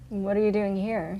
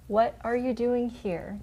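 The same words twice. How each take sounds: First: It is said at a normal speed. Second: It is said slowly and drawn out.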